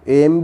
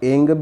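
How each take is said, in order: First: The word ends with an m sound. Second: The word ends with an ng sound. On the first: "एम भी सही है" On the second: "एंग भी सही है"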